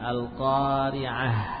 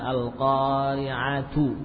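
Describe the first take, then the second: First: The word ends with a soft 'h' sound. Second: The word ends with a full 'tu' syllable. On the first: The reading stops on this word. "Kalau kita waqafkan maka berubah menjadi ha" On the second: The reading continues past this word. "Misalkan al-qari'atu"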